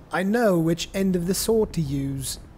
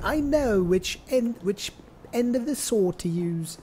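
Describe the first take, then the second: First: It is said in his ordinary accent. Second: It is said in a thick British accent.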